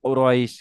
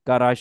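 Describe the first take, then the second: First: The first vowel is rounded with pursed lips. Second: The first vowel is an open 'aa' sound. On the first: The speaker calls it right. "দুই ঠোঁট গোল করে" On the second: The speaker calls it wrong. "কারাইশ হবে না"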